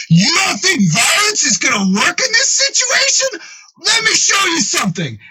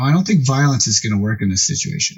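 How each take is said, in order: First: High-pitched, hammed-up furious rant; enraged retort. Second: Said in the usual way. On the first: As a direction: throw it back in mock outrage, voice pitched way up. Enraged Frank throws the words back.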